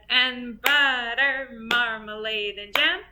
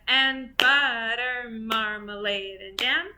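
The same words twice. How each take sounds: No difference in how they are said.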